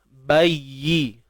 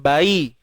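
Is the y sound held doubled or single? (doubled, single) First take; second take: doubled; single. First: The y sound is held long and doubled. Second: The y sound is short and single. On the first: The speaker calls it right. "huruf yang bersabdu pastikan kita sebut betul-betul" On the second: The speaker calls it wrong. "bukan bayi"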